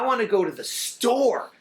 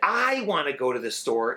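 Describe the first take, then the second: First: The stress is on the word store. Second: The stress is on the word I.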